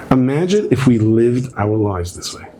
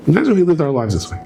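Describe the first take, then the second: First: Slow reflective. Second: Higher and quicker, pressing the point; preacher repeating the line to the crowd, faster and higher; urgent, faster. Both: Shown as a demonstration.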